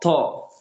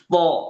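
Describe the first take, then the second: First: The t is released with a puff of breath. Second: The t is thick and firm without breath. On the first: The speaker calls it wrong. "bukan to, to. Itu salah" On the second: The speaker calls it right. "Terasa tebal dan dia tegas tanpa ada hames atau helaan nafas"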